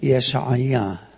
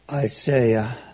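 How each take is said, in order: First: The name is said in a Hebrew way. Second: The name is said in an American way. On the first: The speaker calls it right. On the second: The speaker calls it wrong.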